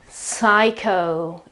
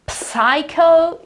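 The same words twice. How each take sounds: First: The word starts with an S sound. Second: The word starts with a P sound. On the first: The speaker calls it right. "psycho is correct. So no P at the beginning" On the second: The speaker calls it wrong. "To say psycho is wrong"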